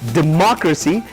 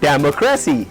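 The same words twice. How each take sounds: First: The second syllable carries the stress. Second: The second syllable does not carry the stress. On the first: The speaker calls it right. "So Mark has got a stress. So you say this is democracy" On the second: The speaker calls it wrong. "This is not democracy"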